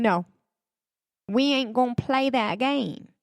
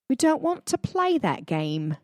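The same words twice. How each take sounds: First: Put-on higher, clumsy British accent, first try; mock British refusal, loosely put on; horrible British accent. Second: Put-on higher, more careful British accent, second try; retry the line as a proper Brit, still badly; mock-polite British accent, hammed up. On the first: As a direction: fake British accent, badly done. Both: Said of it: "I do a horrible British accent".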